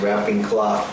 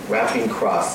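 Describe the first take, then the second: First: The last word sounds like cloth, with l and th. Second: The last word sounds like cross, with r and s. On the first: The speaker calls it right. "It has to be good pronunciation" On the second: The speaker calls it wrong. "I go, wrapping cross, no"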